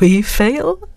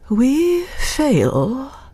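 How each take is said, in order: First: It is said in a cavalier tone. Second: It is said in a thoughtful tone.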